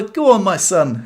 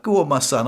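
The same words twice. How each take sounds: First: Higher, slow encouraging call, lightly voiced; mock cheer. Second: Said in the usual way. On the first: Onlookers urging on the man fixing his car, slow mock cheer. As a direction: egg him on like a bloke at the pub, "Go on, my son." drawn out. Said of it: "and they were like". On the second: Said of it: "he was like".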